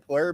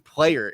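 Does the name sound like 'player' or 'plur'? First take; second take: plur; player. First: The name sounds like 'plur'. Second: The name sounds like 'player'. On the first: The speaker calls it wrong. "This entire time I was like on Plur" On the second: The speaker calls it right. "is how you pronounce it"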